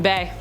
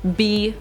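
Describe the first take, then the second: First: The vowel sounds like ay in bay. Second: The vowel sounds like ee in bee. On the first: "I just like saying point bay" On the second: "B is also an acceptable pronunciation"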